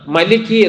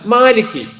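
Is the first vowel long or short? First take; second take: short; long. First: The first vowel is short. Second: The first vowel is long. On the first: The speaker calls it wrong. "മലിക് എന്നതല്ല" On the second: The speaker calls it right.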